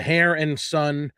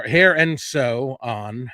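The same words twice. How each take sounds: First: Stumbling over "Hair and Son" before the fix; misread name. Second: "Hair and Sew On" slow, with sew and on as two words; corrected name. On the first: Host reading vendor locations, slowly misreads "Hair and Son". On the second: Host corrects the vendor name, carefully "Hair and Sew On". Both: Real, not acted.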